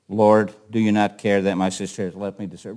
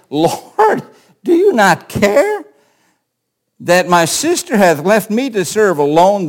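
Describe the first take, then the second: First: It is said in a calm, plain way. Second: It is said in an exasperated way.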